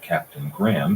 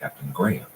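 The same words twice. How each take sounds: First: Graham is said the American way. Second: Graham is said the English way.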